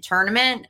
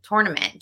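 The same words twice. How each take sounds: First: "tournament" with "tur" like turn, rising; the standard "tournament". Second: "tournament" with a "tour" as in touring, fall; her own "tournament". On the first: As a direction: say "tournament" the usual way, as if testing it. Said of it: "I've never said tournament". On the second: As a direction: say "tournament" the way she always has. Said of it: "I've just always said tournament". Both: Shown as a demonstration.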